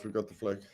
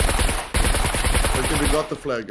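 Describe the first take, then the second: First: Said in the usual way. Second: Loud, breathless cheer; excited shout. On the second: Real, not acted. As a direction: shout out the win. Capturing the flag.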